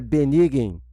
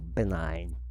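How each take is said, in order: First: It is said as spelled, not standard English. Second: It is said with the standard English pronunciation. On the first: This is how the word was guessed from reading. The speaker calls it wrong. "o que para mim até então era benign" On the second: This is how the word is actually pronounced. The speaker calls it right. "eu finalmente descobri como é"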